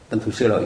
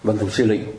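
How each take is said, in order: First: The last syllable is pronounced 'loi'. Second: The last syllable is pronounced 'li'. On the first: This is the familiar reading that sounds more literary. The speaker calls it wrong. "nghe nó có bộ văn chương, nhưng mà mình đọc tên người ta sai" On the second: This is the reading closer to the original name. The speaker calls it right. "mới là đúng"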